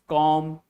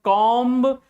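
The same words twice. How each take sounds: First: The final B sound is silent. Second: The final B sound is pronounced. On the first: The speaker calls it right. "This is comb" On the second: The speaker calls it wrong. "This is not comb"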